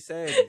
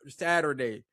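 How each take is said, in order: First: The middle 'er' sound is dropped. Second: The middle 'er' sound is fully pronounced. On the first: "We say Saturday. We, we don't even get the er" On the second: "Y'all y'all give it"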